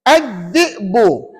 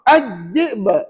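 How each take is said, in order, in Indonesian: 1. Kata ini berakhir dengan bunyi vokal penuh. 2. Kata ini berakhir pada konsonan yang kuat dan memantul. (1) "kalau kita baca wasal" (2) "bunyi jelas dan kena bunyi kuat"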